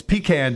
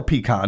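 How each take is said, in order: First: "pecan" with a short a as in "can"; pee-CAN. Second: "pecan" with an open "ah" in the second syllable; pee-KAHN. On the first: Radio host reading out the day, "pecan" as pee-CAN. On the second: Host offering the other way to say it, "pecan" as pee-KAHN. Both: Shown as a demonstration. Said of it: "however you wanna say it".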